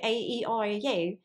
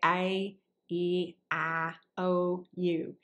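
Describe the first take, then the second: First: It is said in an Irish accent. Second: It is said in a Southern accent.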